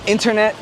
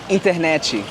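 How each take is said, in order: First: It ends on the final consonant sound. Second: An extra vowel sound is added at the end. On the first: This is the American form of the word. "any word that's American" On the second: This is how Brazilians say the word. "we just add an E at the end"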